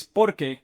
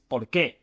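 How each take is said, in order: First: Porque said as one word, POR-ke; stress on first syllable. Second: Por qué with the weight on the last syllable; stress on QUÉ. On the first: Teacher contrasting two Spanish words, porque stressed on POR. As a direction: stress the POR in porque, let the end drop. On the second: Teacher contrasting two Spanish words, por qué stressed on QUÉ. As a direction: land hard on qué in por qué. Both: Shown as a demonstration. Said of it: "And they both sound different".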